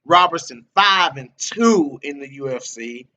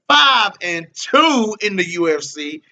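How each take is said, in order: First: Said in the usual way. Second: "five and two in the U F C" slower and louder, each word hammered; emphatic repeat. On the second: Real, not acted. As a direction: drive home "five and two" slowly.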